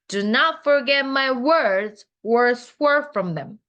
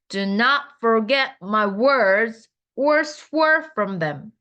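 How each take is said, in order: First: The sentence is read at a normal pace. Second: The sentence is read at a slower pace.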